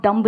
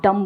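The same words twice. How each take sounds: First: डम्ब with the final B sounded; डम्ब, closing on an audible "b"; wrong pronunciation. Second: डम ending on M, no B; डम, closing the lips on "m"; silent B. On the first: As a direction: pronounce the B at the end of डम्ब. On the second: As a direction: say डम with the B left silent. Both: Shown as a demonstration. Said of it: "क्योंकि बी silent है".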